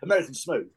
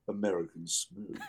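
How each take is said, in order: First: The voice is ordinary and not lowered. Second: The voice is lowered and deep. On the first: It announces the dance without any grandeur. The speaker calls it wrong. "If you just say American Smooth, that doesn't work at all" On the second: It announces the dance with proper grandeur. The speaker calls it right. "You have to sort of lower your voice and go"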